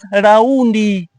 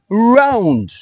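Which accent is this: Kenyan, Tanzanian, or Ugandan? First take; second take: Tanzanian; Ugandan. First: An extra vowel is added at the end. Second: The r is soft, barely pronounced. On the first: "Tanzanians pronounce it as raundi" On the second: "Ugandans pronounce it as round. R is silent"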